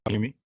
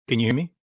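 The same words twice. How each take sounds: First: Said in the usual way. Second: Louder, pushing to be heard; to someone hard of hearing. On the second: Real, not acted. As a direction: raise the voice so they hear. Repeats, no answer on call.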